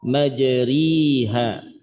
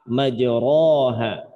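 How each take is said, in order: First: The vowel after r is a clear i. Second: The vowel after r is a full a. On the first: "tidak dibaca dengan kasroh" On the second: "Tidak dibaca dengan fathah"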